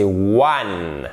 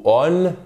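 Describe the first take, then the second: First: "one" opening on a clear, held w sound; correct one. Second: "on" said with a plain vowel start, no w; mispronounced one. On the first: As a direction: start one with a rounded w. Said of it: "c'est one". (one bien prononcé, avec le son w) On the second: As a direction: drop the w of one, say "on". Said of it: "Et c'est pas o". (one mal prononcé, sans le son w) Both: Shown as a demonstration.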